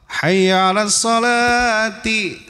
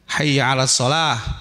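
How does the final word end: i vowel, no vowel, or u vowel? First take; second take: i vowel; no vowel. First: The last word ends with an i vowel. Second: The last word ends in h, no vowel. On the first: "Ciri khafadnya apa? Kasrah" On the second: "lebih baik diwaqaf saja"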